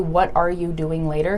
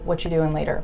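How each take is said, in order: First: Every word is said fully and separately. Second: The word 'are' drops and the words run together. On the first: The speaker calls it wrong. "We don't always say, ... that's just way too choppy" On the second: The speaker calls it right. "We say"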